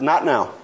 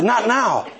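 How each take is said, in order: First: Said in the usual way. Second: Higher, disbelieving repeat of Not now; preacher repeating the friend's refusal, higher and incredulous; incredulous echo. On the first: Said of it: "He said". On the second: Retold or imitated. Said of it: "I said".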